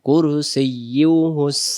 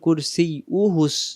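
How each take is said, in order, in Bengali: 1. 'uhu'-এর আগের 'y' ধ্বনিটি রাখা হয়। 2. 'uhu'-এর আগের 'y' ধ্বনিটি বাদ যায়।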